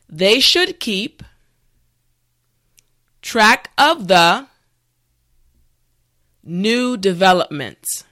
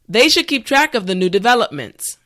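First: The sentence is said slowly and carefully. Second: The sentence is said at a natural speed. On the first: "this time repeat after me" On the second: "the last time at a regular pace"

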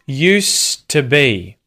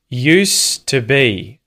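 No difference in how they are said.

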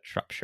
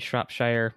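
First: It is said with a British pronunciation. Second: It is said with an American pronunciation. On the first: The speaker calls it right. "but Shropshire" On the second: The speaker calls it wrong. "which is the American pronunciation"

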